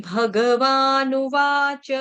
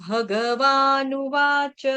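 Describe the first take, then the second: No difference in how they are said.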